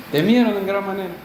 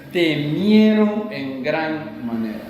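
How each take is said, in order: First: Said in the usual way. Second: Drawn out, weighty and slow; slow, grave retelling of fear; slow dramatic emphasis. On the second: Shown as a demonstration. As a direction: let each word sink in with dread.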